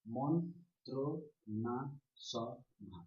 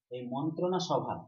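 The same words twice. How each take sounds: First: মন্ত্রণা সভা very slow, five separate beats; syllable by syllable. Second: Said in the usual way. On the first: Shown as a demonstration. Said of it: "যতগুলি ঝুঁকে উচ্চারণ করলাম". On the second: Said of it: "এই মন্ত্রণা সভাকে".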